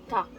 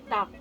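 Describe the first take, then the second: No difference in how they are said.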